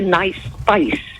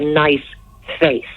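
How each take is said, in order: First: The vowel in face has a southern, 'fice'-like sound. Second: The vowel in face has a northern, pure sound. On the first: "you're mangling the vowels down there" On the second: "up here, you'd say somebody had a nice face"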